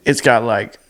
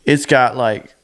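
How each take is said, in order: Both takes have the same delivery.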